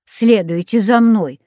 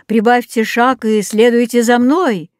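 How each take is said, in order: First: Mildly mocking echo of an order; indignant mimicry. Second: Raised, commanding voice; barked command. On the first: Katya mimics Rex's order to Vitya, indignant. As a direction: quote the order back indignantly. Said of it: "возмущённо сказала Катя". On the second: Rex orders the friends to follow, commanding bark. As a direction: give the order, lifting the last word. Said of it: "рявкнул неожиданно Рекс". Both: A narrator's reading.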